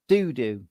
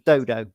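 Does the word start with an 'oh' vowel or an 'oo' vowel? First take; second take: oo; oh. First: Both vowels sound like the 'oo' in 'too'. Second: The first vowel sounds like the 'oh' in 'go'. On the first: This is how the game's makers say it. "Pixel Games like it pronounced" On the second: This is how the speaker would say it. "as I would pronounce it"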